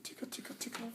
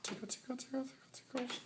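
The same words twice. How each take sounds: First: Unvoiced whisper tickle chant. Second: High sing-song tickle chant; squeaky playful tickle voice; giggly tickle attack. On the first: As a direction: breathe the tickles softly. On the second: Pretend. Tickling sleeping friend, sing-song.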